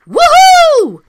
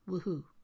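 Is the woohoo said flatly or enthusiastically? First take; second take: enthusiastically; flatly. First: It is said enthusiastically, with lots of energy. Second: It is said flatly, with little energy. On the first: The speaker calls it right. "So here goes" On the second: The speaker calls it wrong. "you could have said that with a bit more enthusiasm"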